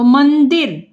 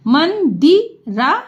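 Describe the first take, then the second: First: Said in the usual way. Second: Mandira spread out syllable by syllable; slow sounding out. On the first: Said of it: "मंदिर, छोटी की मात्रा है तो दी होगा". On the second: Shown as a demonstration. Teacher to pupils, spelling Mandira aloud slowly.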